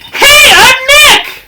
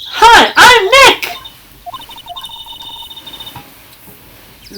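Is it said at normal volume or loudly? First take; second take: loudly; normal. First: It is said more loudly. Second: It is said at normal volume.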